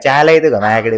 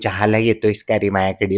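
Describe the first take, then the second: First: It is said in rural village dialect. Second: It is said in standard city Marathi. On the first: "गावी गेल्यानंतर त्याचा जो tone बदलाय" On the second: "शहरात बोलायचं असेल तर"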